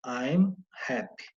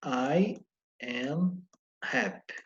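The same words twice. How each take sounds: First: "I'm happy" run together as one quick syllable; contracted I'm. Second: "I am happy" drawn out slowly, each word separate; slow full form. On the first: Teacher showing students the contracted form, run together. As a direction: glide "I'm" straight into "happy", no gap. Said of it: "Ela vai ficar assim, ó". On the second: Teacher contrasting the full form for students, slow and separate. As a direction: stretch "I", "am" and "happy" apart. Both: Shown as a demonstration.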